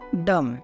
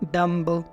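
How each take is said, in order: First: The word ends on m with no b sound. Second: The word ends with an audible b sound. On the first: The speaker calls it right. "इसको हम बोलते हैं" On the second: The speaker calls it wrong. "ऐसे इसको नहीं बोलना है"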